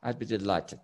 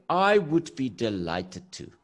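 First: "I'd" run into one short syllable; easy, lower-pitched "I'd be delighted"; contracted speech. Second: "I would" said as two full, separate words; stiff, measured full-form reply; uncontracted speech. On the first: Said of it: "use, uh, contractions and saying". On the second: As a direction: spell out "I would be delighted" deliberately. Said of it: "We don't talk like this". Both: Shown as a demonstration.

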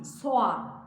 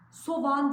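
First: "soğan" with the ğ silent, vowels run together as "soan"; the right way, "soan"; correct pronunciation. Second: "Soğan" with the ğ voiced hard, like a v; the common mistake, "sovan"; wrong pronunciation. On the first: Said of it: "değil, soğan". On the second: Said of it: "Soğan değil". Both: Shown as a demonstration.

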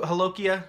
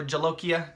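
First: "holokia" with the J softened to an H; soft J. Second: "jalokia" with a hard English J. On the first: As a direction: say "holokia" starting on a breath H. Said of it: "how you like to pronounce". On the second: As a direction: hit the J at the start of "jalokia". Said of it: "the hard J or the soft J". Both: Shown as a demonstration.

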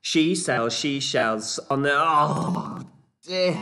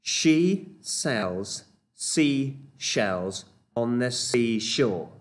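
First: 1 fast attempt fumbling. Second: She sells seashells stretched out very slowly; slow demo. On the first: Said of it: "see how quickly you can do it". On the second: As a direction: lay out each word slowly. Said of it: "here's our next tongue twister". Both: Shown as a demonstration.

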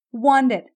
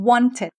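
First: First "wanted" as won-ded, d-like middle; softened middle t. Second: Second "wanted" as won-ted, aspirated t; clear middle t. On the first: Teacher drills first variant, d-like middle in wanted. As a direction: voice the t of "wanted" toward a d. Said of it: "อ่านออกเสียงรวมกันอีกทีหนึ่ง". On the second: Teacher drills second variant, crisp t in wanted. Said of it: "หรือ". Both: Shown as a demonstration.

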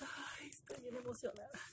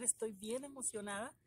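First: Breathless whisper of real excitement; excited whisper. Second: Said in the usual way. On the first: Real, not acted. Opening a gift box, she whispers her excitement. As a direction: whisper it, overwhelmed with joy.

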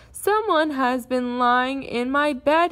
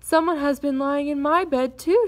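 First: Loud, slow bear growl; big bear's indignant growl; upset growl. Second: Higher, indignant exclamation; startled and cross mother bear; surprised, angry cry. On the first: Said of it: "he growled, very upset". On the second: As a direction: cry out, rising high on "too". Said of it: "she cried, surprised and angry at the same time". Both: A narrator's reading.

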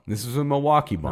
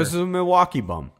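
First: Said in the usual way. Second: Milwaukee hit high and hard; stress on Milwaukee. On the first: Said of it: "second, faster take". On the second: Real, not acted. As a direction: punch the word Milwaukee. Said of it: "corrects, repeats for emphasis".

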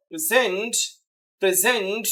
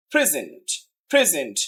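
First: present as pre-ZENT, weight on the end; quick pre, long stressed ZENT in present; second-syllable stress. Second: present as PRE-zent, falling after the first syllable; first-syllable stress. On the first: Teacher showing the verb form, second syllable stressed. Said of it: "দ্বিতীয় সিলেবলটা stress দেন". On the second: Teacher showing the noun meaning gift, first syllable stressed. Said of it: "প্রথম সিলেবলটা যদি stress দেন". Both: Shown as a demonstration.

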